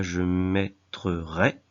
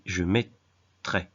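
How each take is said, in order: First: Mettre-rai slowly split into syllables; mettre-rai with an extra "re" drawn out; wrong form mettre-rai. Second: Mettrai in two slow halves, met-trai; correct form mettrai. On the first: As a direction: sound out "mettre", then add a separate "rai". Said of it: "on ne dit pas". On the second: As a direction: pause inside mettrai, no extra syllable. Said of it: "mais je mettrai". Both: Shown as a demonstration.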